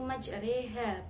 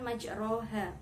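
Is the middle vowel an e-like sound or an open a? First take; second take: e-like; open a. First: The middle vowel leans toward an e sound. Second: The middle vowel is a plain open a. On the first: The speaker calls it right. "Imalah adalah membaca condong antara fathah dengan kasroh. Cara membacanya yaitu majreha" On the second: The speaker calls it wrong. "bukan majroha"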